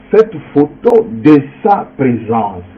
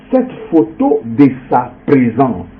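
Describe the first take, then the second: Both takes have the same delivery.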